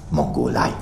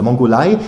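First: MONGOLEI low and falling; low-pitched MONGOLEI, dropping at the end; groping answer. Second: MONGOLEI as a loud, rising question; loud MONGOLEI, lifting at the end; amused echo. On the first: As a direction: land on MONGOLEI as a low, settled statement. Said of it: "dann fiel ihr ein". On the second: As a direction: throw MONGOLEI back in loud disbelief. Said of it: "dass er auflachen musste". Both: A narrator's reading.

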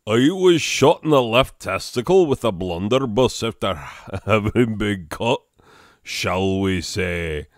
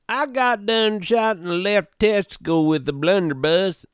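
First: Big rough British giant, breaking into a laugh; Hagrid. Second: Higher-pitched hillbilly accent; put-on accent. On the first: Acted. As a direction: play a hearty storybook half-giant. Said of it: "that's how I do Hagrid". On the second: Shown as a demonstration. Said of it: "let's read this in an accent".

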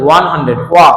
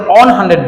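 First: ওয়ান with a clear w glide, ওয়া stressed; right pronunciation. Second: ওয়ান said as a plain o sound, no w glide; quick ওয়ান starting on a bare o vowel; wrong pronunciation. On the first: Teacher showing the right way, ওয়ান with a w glide. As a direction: start ওয়ান on a rounded w before the vowel. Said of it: "আমরা কিন্তু ওয়ান hundred". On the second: Teacher showing the wrong way, ওয়ান without the w. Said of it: "আমরা কিন্তু ওয়ান hundred বলি না". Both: Shown as a demonstration.

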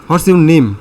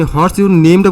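First: A teacher's clear question, a bit louder, falling at the end; teacher's firm falling question; teacher asking. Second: Puzzled student echoing "What's your name-টা" with a rising end; unsure student echoing the question; confused echo. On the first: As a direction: ask it like a teacher, firm and loud. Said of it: "suppose আপনাকে teacher বলছে". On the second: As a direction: repeat the question back, unsure. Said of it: "বুঝছেন না". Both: Shown as a demonstration.

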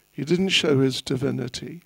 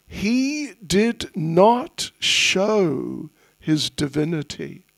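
First: Said in the usual way. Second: Slow and deliberate, each word weighed; slow emphasis. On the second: Shown as a demonstration. Teacher stressing that the boy hid his divinity, slow. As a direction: lay it down slowly.

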